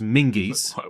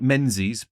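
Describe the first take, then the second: First: The name is said with an ng sound, like Mingis. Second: The name is said with a z sound, as spelled. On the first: The speaker calls it right. "but it's pronounced Mingies" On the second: The speaker calls it wrong. "looks like Menzies"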